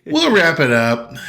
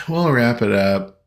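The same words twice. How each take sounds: First: Excited. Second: Said in the usual way. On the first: Real, not acted. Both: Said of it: "repeated wrap-up line".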